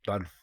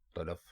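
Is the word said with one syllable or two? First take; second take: one; two. First: There is no vowel between the L and F. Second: There is a vowel between the L and F. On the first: The speaker calls it wrong. "तल्फ़ गलत है" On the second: The speaker calls it right. "ते के ऊपर भी ज़बर है और लाम के ऊपर भी ज़बर है"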